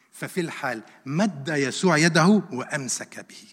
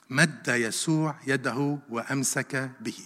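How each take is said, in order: First: Said in the usual way. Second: Slow, measured, lower repeat of the verse; slow emphasis. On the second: Shown as a demonstration. Preacher repeats the verse of rescue to the congregation, slowly. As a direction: let each word sink in, slowly.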